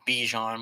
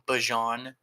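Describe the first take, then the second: First: The first vowel sounds like 'ee'. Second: The first vowel sounds like 'ah'. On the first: The speaker calls it wrong. "not Bijan, which I've been doing as well" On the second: The speaker calls it right. "that's the correct way to pronounce his name. It's Bajan"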